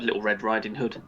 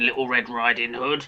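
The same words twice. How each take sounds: First: It is said in a plain, normal voice. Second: It is said in a dramatic put-on voice. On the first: The speaker calls it right. "sorry, just uh" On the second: The speaker calls it wrong. "Why are you doing the voice?"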